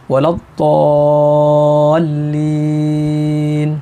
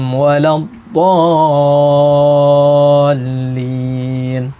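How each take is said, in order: The two takes are said the same way.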